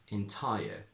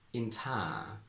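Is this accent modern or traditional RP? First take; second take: modern; traditional. First: Modern RP, with a full gliding vowel. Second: Traditional posh RP, vowel smoothed into long ah. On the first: "From traditional to modern" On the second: "From traditional to modern"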